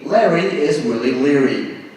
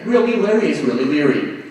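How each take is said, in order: First: It is said at a slower pace. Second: It is said at a fast pace.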